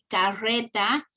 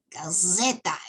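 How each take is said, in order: First: The R is a normal rolled trill. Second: The R is dragged into a buzzing z-like sound.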